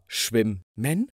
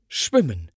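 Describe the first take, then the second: First: The m sound is doubled and held longer. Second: The m sound is single and short. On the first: The speaker calls it wrong. "Also nicht etwa schwimmen" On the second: The speaker calls it right. "sprichst aber trotzdem nur einen"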